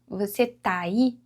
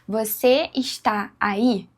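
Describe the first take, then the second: First: The verb is shortened and its vowel merges. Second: The verb is said in full as está. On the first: The speaker calls it right. "Os dois As parece que são um A só" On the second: The speaker calls it wrong. "Não falamos assim"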